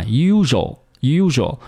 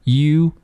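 First: Usual cut to two syllables, 'YU-zho'; thin mispronunciation. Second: Usual drawn out in three parts, 'yu - zhu - wol'; full pronunciation. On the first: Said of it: "好多同学把它读成usual". (usual 读成不饱满的两个音节) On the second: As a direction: say usual very slowly with a w before the final l. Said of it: "它的发音呢应该是". (usual 慢慢读饱满成三个音节) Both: Shown as a demonstration.

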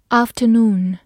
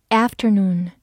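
First: "afternoon" in a British accent, long AH, no R; British pronunciation. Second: "afternoon" in an American accent, A as in cat; American pronunciation. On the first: Teacher repeats a review word for learners, British accent. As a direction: say "afternoon" the British way, opening with AHF. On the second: Teacher gives learners the other pronunciation, American accent. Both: Shown as a demonstration. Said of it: "美式发音afternoon".

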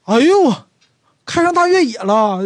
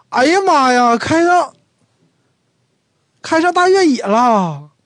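First: "哎呦" higher and louder, astonished; a sharp high "哎呦" at the classmate's SUV; right exclamation, surprised. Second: Higher and louder, "哎呀妈呀" exclaimed; "哎呀妈呀" shouted in amazement at the classmate's SUV; wrong exclamation, surprised. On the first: Right-word demo: to an old classmate with an SUV, "哎呦" high and loud. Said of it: "这个比较通，比较正确的感叹词". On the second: Wrong-word demo: to an old classmate with an SUV, "哎呀妈呀" high and loud. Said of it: "这时候就不能说 "哎呀妈呀". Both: Shown as a demonstration.

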